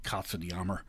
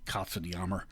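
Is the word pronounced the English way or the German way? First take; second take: German; German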